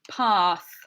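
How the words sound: It is said in a British accent.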